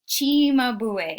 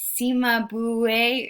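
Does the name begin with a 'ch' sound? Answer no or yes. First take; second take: yes; no. First: The name begins with a 'ch' sound. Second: The name does not begin with a 'ch' sound. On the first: The speaker calls it right. "In Italian, the C is pronounced like a ch" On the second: The speaker calls it wrong. "You're like, uh"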